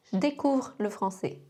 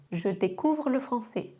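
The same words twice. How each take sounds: First: "Je découvre" said zh-découvre, E dropped; J joined to "découvre"; swallowed E in "je"; contracted je. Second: Said in the usual way. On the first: Shown as a demonstration. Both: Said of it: "mêmes sons".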